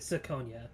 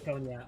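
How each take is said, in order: First: The name begins with a soft S sound. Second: The name begins with a hard K sound. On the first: This is how the speaker says the name. "I pronounce it Siconia, Siconia with a C" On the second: This is how someone else says the name. "I know Death pronounces Kikonia"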